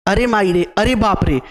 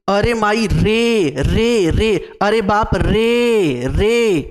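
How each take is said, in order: First: Said in the usual way. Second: "रे" stretched long and repeated, pitch swelling and falling; three-beat long vowel. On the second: Shown as a demonstration. Teacher showing pluta vowels, "रे" hugely drawn out. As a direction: hold every "रे" in "अरे माई रे, अरे बाप रे" for three beats. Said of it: "तीन मात्राएं होती हैं".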